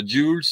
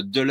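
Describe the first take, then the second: First: Dulles said as one syllable, "dyul"; first pronunciation attempt. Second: Dulles said with an open "eu", like "deu-less"; alternative pronunciation. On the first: Unsure how to pronounce the name, offering Dulles as "dyul". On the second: Offering a second way to pronounce the name, Dulles as "deu-less". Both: Shown as a demonstration. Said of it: "je sais pas comment on prononce".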